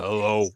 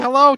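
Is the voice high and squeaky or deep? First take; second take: deep; high squeaky. First: It is said in a low, deep voice. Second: It is said in a high, squeaky voice.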